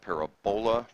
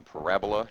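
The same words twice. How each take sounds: First: The stress is on the third syllable. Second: The stress is on the second syllable. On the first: The speaker calls it wrong. "not parabola. Parabola would be like if you had a set of bowls" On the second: The speaker calls it right. "the emphasis on the correct syllable"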